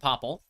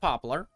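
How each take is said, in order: First: The word ends with a 'pull' sound. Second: The word ends with a 'lar' sound.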